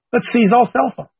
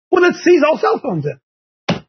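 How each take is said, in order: First: Said in the usual way. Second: Slow, drawn-out sarcastic proposal, pitched higher; sarcastic suggestion. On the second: Acted. Host mocking a ban on phones, slow and sarcastic. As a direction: spell out the absurd fix slowly, mocking it.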